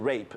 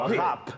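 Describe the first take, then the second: First: It is said with an English pronunciation. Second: It is said with a French pronunciation. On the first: It means sexual assault. "如果用用英文口音的是rape" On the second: It means to grate. "法文是rap"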